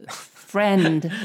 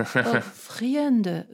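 First: "friend" as one firm syllable, frend; louder teacher's model of "friend", rhyming with "end"; correct pronunciation. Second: "friend" in two beats with a trailing extra vowel; student's mispronunciation. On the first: Shown as a demonstration. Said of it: "It's friend". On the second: Retold or imitated. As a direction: mimic "friend" as "free-end-uh". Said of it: "new student and they say to you".

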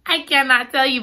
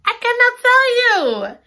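First: Said in the usual way. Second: High, loud "I cannot tell you"; squealed refusal. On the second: Real, not acted. Reader refusing to spoil the ending, squealing. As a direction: tease the viewers with a squeal.

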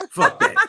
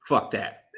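First: High squeaky laughing repeat. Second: Said in the usual way. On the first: Real, not acted. Host rejects pandering, squealing with laughter. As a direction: laugh it out much higher.

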